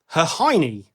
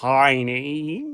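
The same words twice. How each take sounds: First: It is said at normal speed. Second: It is said very slowly.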